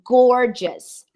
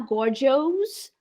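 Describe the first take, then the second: First: The final syllable sounds like 'us'. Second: The final syllable sounds like 'os'. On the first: The speaker calls it right. "So gorgeous" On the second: The speaker calls it wrong. "Nada de falar gorgeous"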